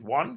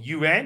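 First: It is said like the English word 'won'. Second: It is said with a 'yu-an' sound. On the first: This is how the Chinese themselves say it. "but they pronounce it won" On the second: This is the name as outsiders insist on saying it. "or yuan if you insist"

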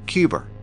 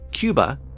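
First: An r sound is added after the final vowel. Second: The word ends in a vowel with no r.

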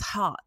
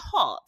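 First: The word is said in an American accent. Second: The word is said in a British accent.

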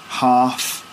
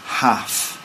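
First: It is said in a southern English accent. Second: It is said in a northern English accent. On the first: "So we'd say" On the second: "in the north they'd say"

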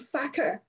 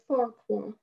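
First: The name is said as two short syllables, 'facker'. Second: The name is said with a 'kw' sound, 'far-kwar'. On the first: "we would say "facker" in Scots" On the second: "as he calls himself Farquhar"

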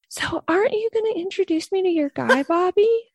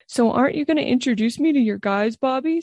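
First: The voice sounds higher and feminine. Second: The voice sounds low and masculine. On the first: The speaker calls it right. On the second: The speaker calls it wrong.

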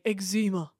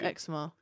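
First: Eczema is said in an exaggerated posh way. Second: Eczema is said in an ordinary way. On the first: "he's taking the piss out of posh people, he's just saying eczema" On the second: "instead of eczema"

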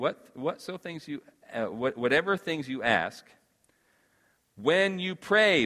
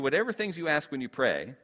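First: The words stop with a clear pause after 'ask'. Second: The words run on with no pause after 'ask'. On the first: The believing is what must happen at the time of prayer. The speaker calls it right. "I would read it like this" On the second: The asking is what happens during prayer. The speaker calls it wrong. "I think sometimes we read it and it says"

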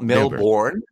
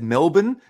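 First: It is pronounced the American way. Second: It is pronounced the Australian way. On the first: The speaker calls it wrong. "Americans would be very common to say Melbourne" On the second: The speaker calls it right. "You pronounced those cities accurately"

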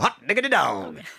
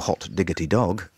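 First: It is said excitedly, in an enthusiastic tone. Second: It is said flatly, in a dour tone. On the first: "It's impossible not to go" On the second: "You can't be on radio 4 and go"

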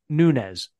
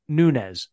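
First: The name is said with Spanish pronunciation. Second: The same.

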